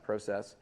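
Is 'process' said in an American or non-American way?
non-American. It is said with a non-American pronunciation. "not process"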